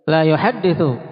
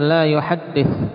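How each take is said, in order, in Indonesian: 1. Kata kerja itu berakhir dengan vokal u di akhir. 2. Kata kerja itu berakhir tanpa vokal di akhir. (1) "diharokati dhammah ... Nafi" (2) "La bisa dibaca juga di sini sebagai la nahiyah"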